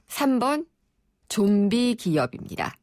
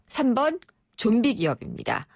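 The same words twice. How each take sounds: First: It is read noticeably more slowly. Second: It is read at an ordinary, even pace.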